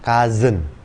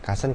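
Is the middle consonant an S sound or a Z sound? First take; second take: Z sound; S sound. First: The middle consonant is a buzzing Z sound. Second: The middle consonant is a hissing S sound. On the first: The speaker calls it right. "penyebutan benar itu pakai Z" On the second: The speaker calls it wrong. "mungkin kebanyakan dari kita akan nyebutin ini sebagai cousin"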